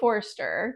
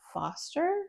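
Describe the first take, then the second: First: The name is said with an R sound. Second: The name is said without an R sound. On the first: This is the speaker's own way of saying it. "I say Forster because there's an R there" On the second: This is how most other people say it. "everyone else says Foster"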